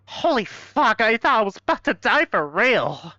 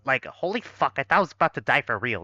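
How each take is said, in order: First: Said in the usual way. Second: Put-on fast, breezy Valley Girl accent; Valley Girl, rushed and casual. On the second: Shown as a demonstration. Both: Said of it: "I'm not even doing the Valley Girl voice".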